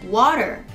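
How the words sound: It is said with an American accent. "アメリカ英語では今みたいにWater と発音しますが"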